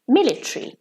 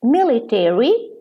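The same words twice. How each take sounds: First: Military clipped to MIL-i-tree; British pronunciation. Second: Military said MIL-i-terry, four clear syllables; American pronunciation. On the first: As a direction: drop the a in military, British style. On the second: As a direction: keep the -tary full in military. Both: Shown as a demonstration. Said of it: "in American English".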